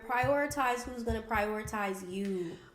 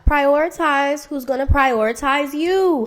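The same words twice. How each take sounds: First: It is said at a normal speaking volume. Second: It is said louder, with more force.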